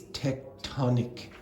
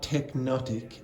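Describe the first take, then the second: First: The sounds come out as 'tec-to-nic'. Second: The sounds come out as 'tech-no-tic'. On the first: The speaker calls it right. "it's tectonic" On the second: The speaker calls it wrong. "It's not technotic"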